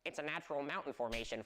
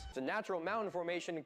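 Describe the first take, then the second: First: It is said in a silly put-on voice. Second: It is said in a normal voice.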